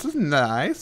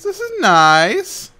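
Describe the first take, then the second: First: Said in the usual way. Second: Much higher, slow stretched-out squeal; high silly voice. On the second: Pretend. High cartoon squeal praising his new room. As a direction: say it like a delighted cartoon. Repeats in put-on voice.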